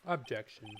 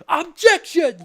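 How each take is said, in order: First: The word is said flatly in a monotone. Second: The word is said loudly with strong energy. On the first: It is a weak, half-hearted objection. "No enthusiasm. Just uh, saying it like a normal sentence or like monotone" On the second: It is a forceful, confident objection. "Not a objection"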